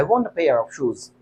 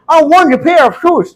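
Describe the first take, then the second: First: Said in the usual way. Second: High, slow, puffed-up British English; mock posh British accent; put-on British accent. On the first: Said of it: "इस तरीके से भी काम चल सकता है". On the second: Shown as a demonstration. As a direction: overdo the native British sound. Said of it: "कोई जरूरी नहीं इसी तरीके से बोल".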